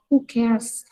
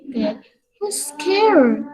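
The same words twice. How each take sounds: First: "who cares" said hoo kairz, ending in z; teacher giving the right "who cares"; correct who cares. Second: "who's care" said as hooz kair, slow; teacher showing the wrong "who's care". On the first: Teacher models the correct form for students, clear. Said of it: "baru ini yang betul ya". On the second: Teacher demonstrates the common mistake to students, slow. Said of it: "membacanya dengan seperti itu". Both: Shown as a demonstration.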